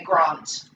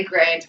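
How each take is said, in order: First: "Grant" with a long "ah", as in "father"; South Australian Grant. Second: "Grant" with the short flat a of "cat"; own pronunciation of Grant. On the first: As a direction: say "Grant" like "Grahnt", the English way. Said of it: "whereas he would say Grant". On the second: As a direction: say "Grant" with an a as in "ant". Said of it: "so I say Grant". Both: Shown as a demonstration.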